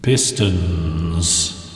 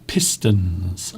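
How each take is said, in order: First: The word is heard with an echo. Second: The word is heard dry, without echo.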